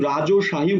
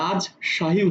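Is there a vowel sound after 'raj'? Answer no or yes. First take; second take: yes; no. First: A vowel sound follows the first syllable. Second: The first syllable closes on the consonant. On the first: The speaker calls it wrong. "আমি কিন্তু রাজশাহী উচ্চারণ করছি না" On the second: The speaker calls it right. "আমি কিন্তু রাজশাহী উচ্চারণ করছি"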